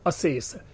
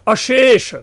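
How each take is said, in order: First: The sibilants are plain s sounds. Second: The sibilants are sh sounds. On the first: This is the Prakrit form. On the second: This is the Sanskrit form.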